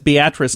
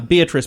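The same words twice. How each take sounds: First: It is pronounced the way the Nebraska town is. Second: It is pronounced the way the personal name is. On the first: It refers to the place in Nebraska. "In Nebraska, it's Beatrice, Nebraska" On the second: It refers to a person. "Beatrice probably does make more sense for a person's name"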